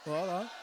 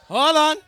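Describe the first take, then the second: First: Said in the usual way. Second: Much louder and higher, hold on. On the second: Real, not acted. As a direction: shout hold on to stop yourself.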